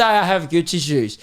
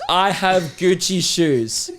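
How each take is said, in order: First: Said in the usual way. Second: Slow, drawn-out mock announcement; mock proclamation. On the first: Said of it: "Just say". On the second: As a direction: announce it like a parade float banner. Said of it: "throw a parade with the front float that says".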